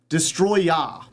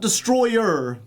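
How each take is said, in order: First: The word ends with an open 'ah' sound. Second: The word ends with an 'er' sound. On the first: The speaker calls it right. "It's called Destroya" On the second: The speaker calls it wrong. "Not Destroyer"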